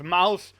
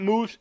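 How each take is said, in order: First: "Mouse" with an ow vowel; correct brand pronunciation. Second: "Moose" with a long oo vowel; mispronounced brand name. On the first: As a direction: say "Mouse", rhyming with "house". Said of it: "it is Mouse". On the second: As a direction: say "Moose", rhyming with "goose". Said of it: "If you haven't heard of Mouse, it's not Moose". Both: Shown as a demonstration.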